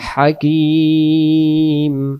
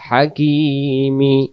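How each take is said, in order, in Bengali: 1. শব্দটি শেষ হয়েছে ব্যঞ্জনবর্ণ ম দিয়ে। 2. শব্দটি শেষ হয়েছে চূড়ান্ত ই স্বরবর্ণ দিয়ে। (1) "উচ্চারণ হবে হাকিম" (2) "দম ফেলার জায়গা আছে, যেটা হবে না"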